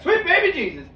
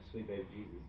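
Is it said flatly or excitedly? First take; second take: excitedly; flatly. First: It is said excitedly, like an exclamation. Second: It is said flatly, without excitement.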